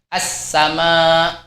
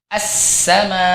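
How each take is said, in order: First: The consonant is cut off and stops the sound. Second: The consonant lets the sound flow through. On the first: The speaker calls it wrong. "mentok. Ini tidak boleh" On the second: The speaker calls it right. "harus dialirkan suaranya"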